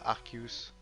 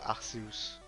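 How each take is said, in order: First: The c is pronounced as a k sound. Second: The c is pronounced as an s sound. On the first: The speaker calls it wrong. "C et E ça fait jamais que. Donc on devrait pas dire Arceus" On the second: The speaker calls it right. "on devrait dire Arceus"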